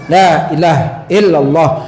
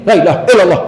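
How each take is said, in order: First: The phrase is said at a moderate pace. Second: The phrase is said very fast. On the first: The recitation is balanced. The speaker calls it right. "segitu aja" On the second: The recitation is rushed. The speaker calls it wrong. "Jangan terlalu cepat ya Pak ya, jangan sampai yang gini"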